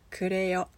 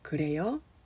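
First: The voice falls or stays level at the end. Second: The voice rises at the end. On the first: It is so. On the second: Is that so?

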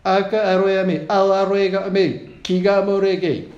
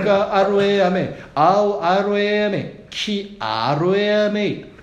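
First: It is said fast. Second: It is said slowly.

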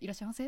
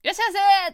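First: It is said meekly, like an apology. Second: It is called out loudly and brightly.

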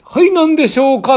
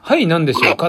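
First: It is said in a higher voice. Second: It is said in a lower voice.

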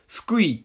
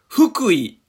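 First: It uses the local Fukui-area pitch pattern. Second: It uses the standard Kanto pitch pattern. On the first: "近くにいる人だと、まあ、ゆかりのある方だと" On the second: "関東の、まあ、標準語に近い、喋り方の音の運び方だと"

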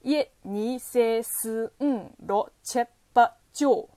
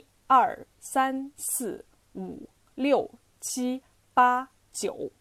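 First: The numbers are said in a local dialect. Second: The numbers are said in Standard Mandarin.

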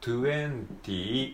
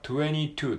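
First: It is said carefully, every sound full. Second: It is said casually, with sounds reduced. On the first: "綴りで言うと22 って書きますよね" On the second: "実際は22 っていう風に言われることが多いです"

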